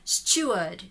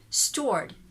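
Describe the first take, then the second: First: The R sound after the vowel is dropped. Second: The R sound after the vowel is pronounced.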